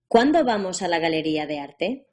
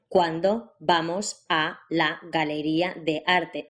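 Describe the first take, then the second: First: The words flow together without any pauses. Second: Each word is separated by a short pause.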